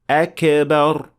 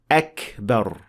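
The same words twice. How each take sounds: First: The k is released with a bouncing echo. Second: The k is released with soft breathiness. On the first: The speaker calls it wrong. "applying qalqala on it" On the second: The speaker calls it right. "it should be pronounced with hams"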